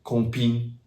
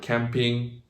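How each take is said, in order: First: "camping" said the French way, first vowel nasal, ending in ping; French pronunciation. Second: "camping" said the English way, with an a as in cat; English pronunciation. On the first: Teacher showing the loanword in French, French "camping". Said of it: "find it a lot in loan words". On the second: Teacher naming a loanword from English, English "camping". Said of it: "for example, from English". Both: Shown as a demonstration.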